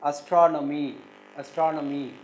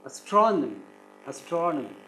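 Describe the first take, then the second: First: "astronomy" with the third syllable lifted; imitating students, "astronomy" with weight on NO; students' wrong stress. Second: "astronomy" with a strong TRON, then falling; "astronomy" as as-TRON-omy; stress on second syllable. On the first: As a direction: misstress "astronomy" as as-tro-NO-my. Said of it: "they will stress the third syllable". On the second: Shown as a demonstration. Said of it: "you have to stress the second syllable".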